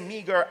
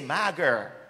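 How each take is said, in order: First: It is said in standard English pronunciation. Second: It is said in an affected, posh-sounding Jamaican way. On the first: "when I'm talking in Jamaica, I do not say meager" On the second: "some of you who like to still talk speaky-spoky"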